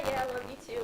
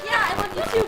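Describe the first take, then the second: First: Said in the usual way. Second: High, loud, amused retelling; excited, laughing imitation of a reply; laughing quote. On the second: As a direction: say it raised and bubbling with laughter. Same reply retold through laughter.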